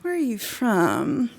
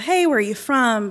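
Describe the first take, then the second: First: It is said slowly and drawn out. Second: It is said quickly and casually.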